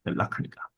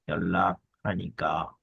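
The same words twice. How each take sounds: First: Said in the usual way. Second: Slow, low, drawn-out 연락하니까; slow sounding-out. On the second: Shown as a demonstration. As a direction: draw out each part of 연락하니까 for learners. Slow repeat sounding out the phrase.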